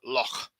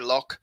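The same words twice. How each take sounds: First: It ends in a rough, throaty sound. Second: It ends in a hard k sound. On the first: The speaker calls it right. "the guttural as the Scots do with the word loch" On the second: The speaker calls it wrong. "Most people say loch because we speak English"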